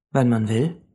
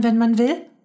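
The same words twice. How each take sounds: First: Settled, even reply; calm confirmation. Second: Put-on high child's voice, rising at the end; girl's incredulous question; amazed question. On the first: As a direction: confirm it calmly, without surprise. Man calmly confirms Mia's question. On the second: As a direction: ask it high and astonished. Mia asks, man confirms. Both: A narrator's reading.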